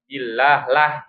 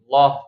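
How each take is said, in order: First: The l sound is thin and light. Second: The l sound is thick and heavy. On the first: "bacanya tarqiq ya, tipis" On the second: "tebal atau tafkhim"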